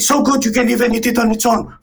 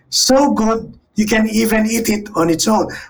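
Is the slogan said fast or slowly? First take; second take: fast; slowly. First: The slogan is spoken at a fast pace. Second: The slogan is spoken at a slow pace. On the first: "can say, ... fast" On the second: "If you say slowly"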